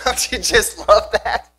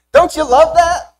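First: Said in the usual way. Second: Slow, beaming, thrilled repeat; excited, much higher and louder. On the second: Acted. Preacher to congregation, relishing Jesus walking out, thrilled. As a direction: lift the whole congregation with delight.

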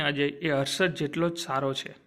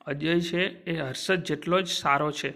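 First: Said in the usual way. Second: Slow, careful restatement. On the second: Shown as a demonstration.

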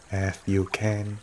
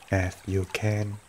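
Both takes have the same delivery.

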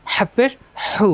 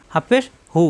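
First: Slow "হাফেশ হু" with pharyngeal h; throat-pressed h. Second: Said in the usual way. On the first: Shown as a demonstration. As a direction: squeeze the throat on each h of "হাফেশ হু". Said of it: "কণ্ঠনালীতে চাপ". ("হাফেশ হু" কণ্ঠনালীতে চাপ দিয়ে) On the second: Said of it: "normal".

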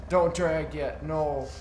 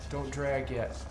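First: Higher, louder, insistent repeat; louder urgent repeat. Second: Said in the usual way. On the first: Real, not acted. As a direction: shout it the second time. Urgent warning in firefight.

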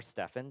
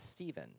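First: Short E and an F sound in "Stephen". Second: Long EE and a V sound in "Stephen". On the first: Preacher offering another pronunciation, "Stephen" said as STEF-ən. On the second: Preacher naming an apostles' helper, "Stephen" pronounced STEE-vən. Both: Shown as a demonstration. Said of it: "depending on how you pronounce it".

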